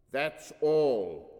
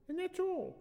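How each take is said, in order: First: THAT'S ALL said loud and firmly; underlined emphasis. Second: Put-on very high little-girl voice; young daughter. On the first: A narrator's reading. Father confirming the daughter's account, "That's all" emphatic. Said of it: "Anthrax underlined". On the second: Daughter finishing for mama, high childish voice.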